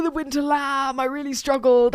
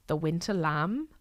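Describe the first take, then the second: First: High, teary and breaking; choked up. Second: Said in the usual way. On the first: Real, not acted. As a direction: say the name as if about to cry. Overwhelmed recalling sad film character.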